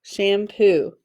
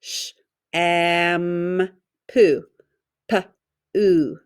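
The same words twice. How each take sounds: First: Said in the usual way. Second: "sh, am, poo, P, oo" as separate sounds with pauses; tapped-out sounds. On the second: Shown as a demonstration. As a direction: sound out "sh", long "am", then "poo" broken into "P", "oo". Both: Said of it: "Tap it out".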